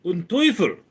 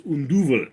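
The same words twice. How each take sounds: First: "Un Teufel" with German T and "oy", said higher; German devil. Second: "Un Duvel" with Dutch D and long "uu"; Dutch devil. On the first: The German line he was first asked to say, in German pronunciation. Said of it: "originally they wanted me to say". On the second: The Dutch line he ended up using, in Dutch pronunciation. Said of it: "in Dutch it's". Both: Shown as a demonstration.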